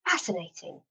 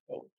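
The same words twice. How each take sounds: First: It is said in the speaker's normal voice. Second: It is said in a Doctor Spock voice.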